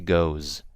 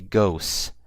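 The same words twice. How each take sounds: First: The word ends with a buzzing Z sound. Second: The word ends with a hissing S sound. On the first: The speaker calls it right. "not with an S, but with a Z" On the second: The speaker calls it wrong. "I didn't say goes"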